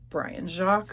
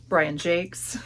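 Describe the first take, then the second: First: The surname does not rhyme with 'cakes'. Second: The surname rhymes with 'cakes'. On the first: The speaker calls it wrong. "I always say that wrong" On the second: The speaker calls it right. "but it is Jakes"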